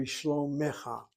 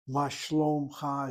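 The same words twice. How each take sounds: First: Shlomecha with a clear e after the m, shlo-me-cha; careful textbook shlomecha in three syllables; correct grammatical form. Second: Ma shlomcha said quickly, with no vowel between m and ch; casual spoken Ma shlomcha, the e dropped; street form. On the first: Teacher giving students the correct grammatical form, carefully. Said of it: "It should be". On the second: Teacher demonstrating colloquial Ma shlomcha to students, casual and quick. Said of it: "is what they say in the streets". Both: Shown as a demonstration.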